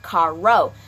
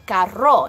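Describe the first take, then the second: First: "carro" in flat English sounds, R unrolled; no Spanish accent. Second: "carro" slowly with a Spanish R; Spanish rolled R. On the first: Teacher showing the wrong way, "carro" with no accent. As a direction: say "carro" slowly like an English speaker. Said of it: "there's no accent in that". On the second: Teacher showing how car is said, "carro" in Spanish accent. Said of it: "So when we say car, we say". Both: Shown as a demonstration.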